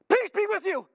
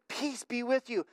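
First: It is shouted loudly and suddenly. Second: It is said calmly and quietly.

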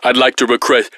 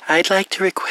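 First: It is said in his normal voice. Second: It is said in a put-on girl's voice.

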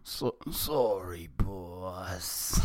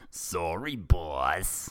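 First: It sounds deeply apologetic and contrite. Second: It sounds only mildly apologetic.

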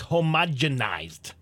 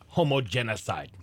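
First: The word ends with a 'z' sound. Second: The word ends with a 'cide' sound. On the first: The speaker calls it right. "it's homogenized" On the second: The speaker calls it wrong. "not homogenicide"

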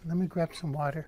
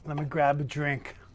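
First: It sounds meek, like a poor nice guy. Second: It sounds cocky, like a rich bad boy.

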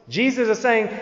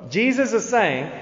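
The two takes are said the same way.

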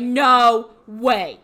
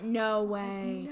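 First: It sounds genuinely surprised and interested. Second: It sounds fake and politely uninterested.

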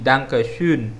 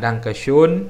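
First: The last vowel is a rounded front ö sound. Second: The last vowel is a plain o sound. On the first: The speaker calls it right. "tapi Dankeschön" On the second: The speaker calls it wrong. "bukan Dankeschön"

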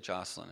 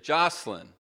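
First: The name is said at normal volume. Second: The name is yelled loudly.

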